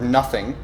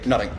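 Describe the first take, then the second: First: The word begins with a soft th sound. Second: The word begins with a hard t sound.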